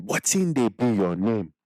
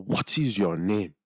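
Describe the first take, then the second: First: Slow Nigerian Pidgin "Wetin dey be your name?" with the accent. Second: Said in the usual way. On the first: Shown as a demonstration. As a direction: repeat it slowly in the accent. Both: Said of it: "So I say it again".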